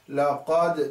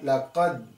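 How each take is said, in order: First: The final d is released with an echoing bounce. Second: The final d is closed without any echo. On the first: The speaker calls it right. "so we should echo it" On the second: The speaker calls it wrong. "not laqad"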